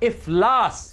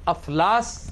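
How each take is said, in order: First: The word begins with an 'i' vowel. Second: The word begins with an 'a' vowel. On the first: The speaker calls it right. "अलिफ के नीचे जेर है" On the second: The speaker calls it wrong. "अफलास गलत है ये कातिब की नाहली की वजह से हम अलिफ के ऊपर जबर इस्तेमाल करते हैं"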